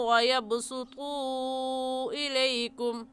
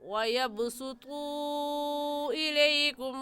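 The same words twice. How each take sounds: Both takes have the same delivery.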